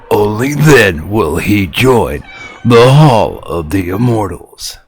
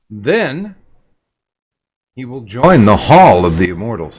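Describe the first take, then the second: First: It is said in a dramatic wrestling-announcer voice. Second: It is said in his normal voice.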